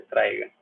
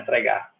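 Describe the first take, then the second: First: "traiga" stressed on the first syllable, TRAI-ga. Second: "traigar" with the stress thrown onto the last syllable; wrong final stress. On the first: Teacher correcting for the class, "traiga" stressed on TRAI. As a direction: punch TRAI, let "ga" fall away unstressed. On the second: Teacher showing class the wrong accent, "traigar" stressed at the end. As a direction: say "traigar" stressed on GAR, as the mistake. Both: Shown as a demonstration. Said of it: "Não é traigar".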